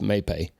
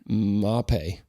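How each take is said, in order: First: The name is said as 'may pay'. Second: The name is said in an Italian-style way. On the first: This is the familiar local way of saying it. The speaker calls it wrong. "I heard it may pay my whole life, ... but that's not right" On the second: This is the corrected way of saying it. The speaker calls it right. "So I'm going to say Mape, and I hope that's right"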